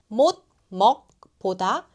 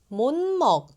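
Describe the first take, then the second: First: The final consonant stays a hard stop. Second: The final consonant becomes a nasal sound. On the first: The speaker calls it wrong. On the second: The speaker calls it right.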